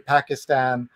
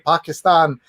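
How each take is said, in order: First: Pakistan is said with an American pronunciation. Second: Pakistan is said with a South Asian pronunciation. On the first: The speaker calls it wrong. "and not say Pakistan" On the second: The speaker calls it right. "he could say Pakistan"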